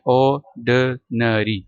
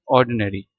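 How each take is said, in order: First: "ऑर्डिनरी" very slowly as aw-duh-nuh-ree; syllable by syllable. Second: Said in the usual way. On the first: Shown as a demonstration. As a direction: break "ऑर्डिनरी" into separate drawn-out syllables, no R after the first vowel. Teacher breaks the word into syllables.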